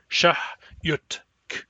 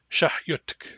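First: The word is said slowly, each part separated. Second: The word is said quickly, at fluent speed. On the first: "Say them one after the other" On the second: "At fluent speed, it sounds like"

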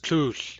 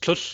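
First: The vowel is a long U. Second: The vowel is a short U. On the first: The speaker calls it wrong. "He said it with a long U instead of a short U" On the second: The speaker calls it right. "with a long U instead of a short U"

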